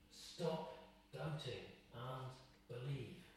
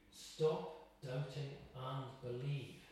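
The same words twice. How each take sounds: First: Much softer, slow repeat; soft, slow echo. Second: Very slow, each word laid down; slow, weighty voice of Jesus. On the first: Shown as a demonstration. Preacher repeats the command softly to the congregation. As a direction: let it sink in quietly. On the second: Acted. Preacher voicing Jesus's command, slow and grave. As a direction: give Jesus's command with gravity. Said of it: "Jesus is saying to you".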